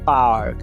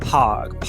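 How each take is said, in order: First: The first consonant has no puff of air. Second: The first consonant has a puff of air. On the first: The speaker calls it wrong. "Parque não é park" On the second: The speaker calls it right. "A gente aspira junto com esse fonema"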